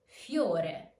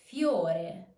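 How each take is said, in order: Both takes have the same delivery.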